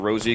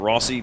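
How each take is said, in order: First: It sounds like the girl's name Rosie. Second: It sounds like the Italian surname Rossi. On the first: The speaker calls it right. "it's actually the Rosie" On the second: The speaker calls it wrong. "It's commonly called the Rossi"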